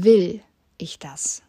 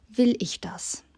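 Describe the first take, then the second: First: „Will“ louder and drawn out slowly; a heavy, slow „Will“ that opens the question; stress on WILL. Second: „Will“ hit higher, then falling; first word „Will“ lifted and stressed. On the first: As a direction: press hard on „Will“, slow and breathy. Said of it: "Wenn ich die Betonung auf das „Will ich das?“ setze". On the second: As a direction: lean on „Will“ in the question. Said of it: "Wenn ich die Betonung auf das". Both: Shown as a demonstration.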